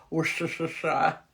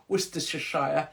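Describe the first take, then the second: First: Slow American-accent Worcestershire, every syllable spelled out. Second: Said in the usual way. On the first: Shown as a demonstration. Mocking how Americans say the county, in an American accent. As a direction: say Worcestershire as an American tourist would. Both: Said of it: "as Americans would say".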